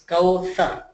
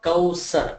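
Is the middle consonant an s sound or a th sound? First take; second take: th sound; s sound. First: The middle consonant is a th sound. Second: The middle consonant is an s sound. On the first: The speaker calls it right. "my tongue is touching on my upper teeth" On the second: The speaker calls it wrong. "it's not Kawsar"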